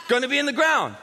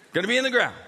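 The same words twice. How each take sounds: First: Punchy repeat. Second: Said in the usual way. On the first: Shown as a demonstration.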